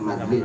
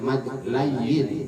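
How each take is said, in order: First: The second part is contracted to one syllable 'lin'. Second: The second part is said fully as 'layin'. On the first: This is the local village way of saying it. "orang kampung Pondok Terong nyebutnya madlin" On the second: This is the proper Arabic name of the rule. "Kalau hukum Arabnya nyebutnya sebutnya mad layin"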